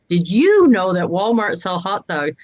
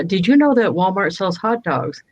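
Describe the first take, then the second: First: You stressed in Did you know that Walmart sell hot dogs; teasing a telemarketer with you stressed. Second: Know stressed in Did you know that Walmart sells hot dogs; mock sales line with know leaned on. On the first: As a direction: push the word you, the rest even. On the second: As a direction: lean on the word know, the rest even. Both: Shown as a demonstration. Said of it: "I emphasize a different word".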